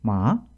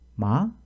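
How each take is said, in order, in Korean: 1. 음이 내려갔다가 높은 곳에서 끝납니다. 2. 끝에서 음이 빠르게 올라갑니다. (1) "뒤를 어, 좀 높은 쪽에서 끝나게 됩니다" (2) "이렇게 뒤를 빠르게 올리는 소리입니다"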